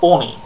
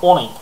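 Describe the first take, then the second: No difference in how they are said.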